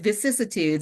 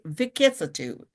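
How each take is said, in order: First: The first syllable is followed by a soft s sound. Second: The first syllable ends in a hard k sound. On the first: The speaker calls it right. "they said vicissitudes" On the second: The speaker calls it wrong. "first I thought it was pronounced Vicket"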